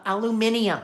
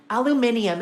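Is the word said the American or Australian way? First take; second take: Australian; Australian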